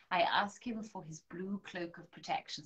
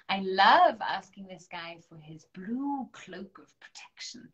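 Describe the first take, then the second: First: Said in the usual way. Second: Breathy whispered confidence. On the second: Real, not acted. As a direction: lean in and whisper it like a secret. Whispering aside about Archangel Michael.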